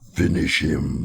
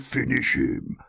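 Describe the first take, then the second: First: It is said in an exaggerated put-on voice. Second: It is said in a mild put-on voice. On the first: The speaker calls it right. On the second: The speaker calls it wrong.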